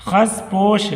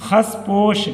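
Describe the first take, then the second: The two takes are said the same way.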